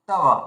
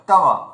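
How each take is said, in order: No difference in how they are said.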